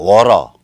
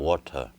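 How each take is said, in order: First: The middle T is flapped like a quick R. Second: The middle T is pronounced as a clear T. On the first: It imitates native speakers. "이런 식의 원어민적 발음을 안 합니다" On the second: It is a deliberately careful, non-native style. "고전적 발음을 해요"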